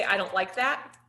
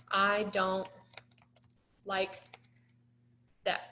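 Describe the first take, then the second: First: Said in the usual way. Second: Slow, soft, word by word: I don't like that; slow model script. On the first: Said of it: "You can say". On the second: Shown as a demonstration. Teacher modeling a short script for Sam, slow and soft. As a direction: spell out "I don't like that" with long pauses. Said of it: "I'm gonna retype what you said".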